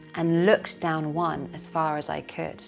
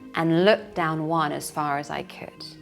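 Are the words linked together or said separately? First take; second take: linked; linked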